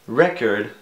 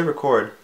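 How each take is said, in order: First: "Record" stressed on the first syllable, REH-kerd; noun-style record. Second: "record" stressed on the second syllable, ri-KORD; "record" with a light ri and a strong KORD; verb-style record. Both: Shown as a demonstration. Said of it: "Do you guys say record or record?".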